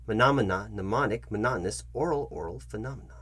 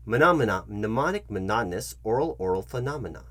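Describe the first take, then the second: No difference in how they are said.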